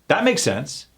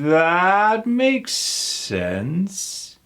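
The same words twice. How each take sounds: First: The phrase is said quickly and run together. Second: The phrase is said slowly and spread out. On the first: "do you see how fast Americans say that?" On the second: "if you were to slow me down"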